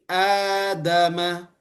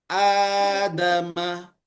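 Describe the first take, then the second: No difference in how they are said.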